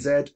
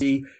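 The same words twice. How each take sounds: First: The letter is said as zed, non-American style. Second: The letter is said as zee, American style.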